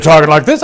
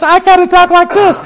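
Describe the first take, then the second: First: Said in the usual way. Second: Much higher, louder, squeaky put-on voice. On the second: Shown as a demonstration. Jacob worrying about faking Esau, in a high put-on voice. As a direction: jump way up into a silly voice to show the disguise. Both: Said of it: "instead of talking like this".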